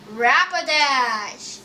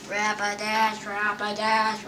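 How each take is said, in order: First: Rapidash stretched out slowly; long, falling Rapidash; drawn-out announcement. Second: Chanted, low, level repetition of Rapidash; chanted, monotone Rapidash; idle chant. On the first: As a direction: draw the name out like a slow announcement. Announces card name with a flourish. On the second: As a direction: chant the name to yourself on one low note. Idly repeats the card name. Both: Real, not acted.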